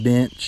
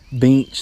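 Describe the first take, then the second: First: It is said in a standard accent. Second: It is said in an Arkansan accent. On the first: "instead of bench" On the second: "I also say bench"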